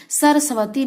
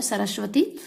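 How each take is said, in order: First: सरस्वती said "sarsavati", vowel after the second S; plain S. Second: सरस्वती said "sarashvati", SH joined to V; SH sound. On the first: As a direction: break up the SW in सरस्वती as "sava". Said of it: "नहीं होता है". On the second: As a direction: put "shv" in सरस्वती. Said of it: "इसमें आधा श होता है". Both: Shown as a demonstration.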